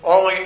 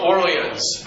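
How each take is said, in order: First: It is said with a French accent. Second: It is said with an English accent.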